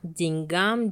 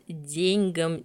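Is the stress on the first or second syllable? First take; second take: second; first. First: The stress is on the second syllable. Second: The stress is on the first syllable. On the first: This is the standard literary form. The speaker calls it right. "Литературная норма — это деньгам" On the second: This form is acceptable but outdated. The speaker calls it wrong. "рассматривается как допустимый, однако устаревший"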